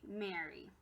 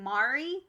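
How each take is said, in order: First: The first vowel is an 'eh' sound. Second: The first vowel is an open 'ah' sound. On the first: The speaker calls it right. "changed from an ah to an eh kind of sound" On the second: The speaker calls it wrong. "instead of it being Mari"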